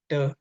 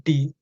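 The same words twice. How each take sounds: First: "the" said as "duh"; "the" ending in a neutral uh; schwa "the". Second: "the" said as "dee"; "the" rhyming with "tea"; long-e "the". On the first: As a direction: say "the" with a short uh vowel. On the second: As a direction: say "the" with an ee vowel. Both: Shown as a demonstration. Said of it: "based on the tongue position".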